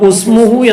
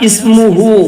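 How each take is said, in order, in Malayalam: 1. ഈ വാക്ക് 'u' സ്വരം കൊണ്ട് തുടങ്ങുന്നു. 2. ഈ വാക്ക് 'i' സ്വരം കൊണ്ട് തുടങ്ങുന്നു. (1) "ആ കണക്ക് പ്രകാരം ഇവിടെ ഉസ്മുഹു എന്ന വായിക്കേണ്ടത്" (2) "ഇസ്മാണെങ്കിൽ അതെങ്ങനെയല്ല വരാ"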